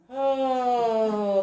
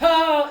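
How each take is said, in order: First: The word is said softly and gently. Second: The word is said sharply and harshly. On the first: This calmly tells the horse to stop. The speaker calls it right. "You have to be nice to the horse" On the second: This would scare the horse into running away. The speaker calls it wrong. "no. You have to be nice to the horse"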